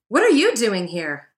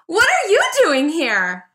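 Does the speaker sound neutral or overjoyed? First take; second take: neutral; overjoyed. First: It is said in a plain, neutral way. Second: It is said with overjoyed delight.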